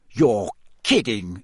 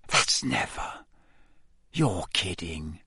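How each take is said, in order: First: Said in the usual way. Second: Hushed, softer, slow disbelief; boy whispering in amazement; whispered. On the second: A narrator's reading. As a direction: breathe it out in awe. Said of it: "Ron whispered".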